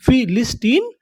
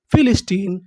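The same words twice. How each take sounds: First: फिलिस्टीन in parts, rising at the end; measured breakdown of फिलिस्टीन; syllable by syllable. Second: Said in the usual way. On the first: Shown as a demonstration. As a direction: sound out फिलिस्टीन with the last part lifted. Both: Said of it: "उसे हम लोग क्या बोलते हैं".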